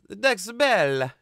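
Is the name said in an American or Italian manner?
Italian. It is said Italian-style with an added final vowel. "It's almost like they put a E or an A at the end"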